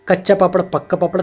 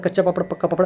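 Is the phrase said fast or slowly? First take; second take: slowly; fast. First: The phrase is spoken slowly and carefully. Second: The phrase is spoken quickly and rapidly. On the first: "शुरुआत में धीरे धीरे बोलें" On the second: "तेजी से speed बढ़ाते चले"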